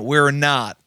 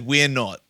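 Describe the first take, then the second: First: It is said in an American accent. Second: It is said in an Australian accent. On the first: The speaker calls it wrong. "I said a very American "we're not,"" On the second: The speaker calls it right. "where I should have said "we're not," ... is more Australian"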